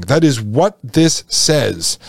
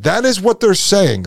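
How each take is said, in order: First: "this" drawn out and lowered, slow delivery; stress on this, slow. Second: "is" pushed up high, the rest falling; stress on is. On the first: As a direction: slowly hammer the word "this" home. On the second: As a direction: lean on the word "is" as if insisting. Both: Shown as a demonstration.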